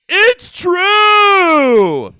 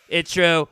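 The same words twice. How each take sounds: First: High-pitched shout of It's true. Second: Said in the usual way. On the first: Acted. Shouted repeat.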